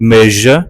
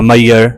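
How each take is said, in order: First: The middle consonant is a buzzing zh sound. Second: The middle consonant sounds like a y. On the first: The speaker calls it right. "हिन जी accurate pronunciation में ही आवाज़ पाण highlight हूंदो आहे" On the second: The speaker calls it wrong. "असां सिंधी में अक्सर इन खे मिसप्रोनाउंस कंदा आहियूं"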